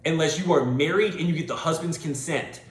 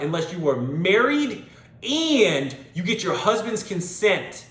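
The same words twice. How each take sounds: First: Said in the usual way. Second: "Unless you are married" slowed and leaned on, "consent" pressed, a touch louder; slower emphatic repeat. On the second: Shown as a demonstration. Repeating the rule because listeners miss it, slow and emphatic. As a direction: spell it out word by word. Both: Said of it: "Let me say that again".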